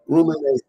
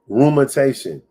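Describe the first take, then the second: First: The middle syllable sounds like 'mi'. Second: The middle syllable sounds like 'men'. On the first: The speaker calls it right. "It's rumination" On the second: The speaker calls it wrong. "That's why I'm pronouncing the thing wrong"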